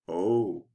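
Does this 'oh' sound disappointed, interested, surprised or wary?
wary. The 'oh' sounds wary. The speaker feels they must be careful. "I better be careful"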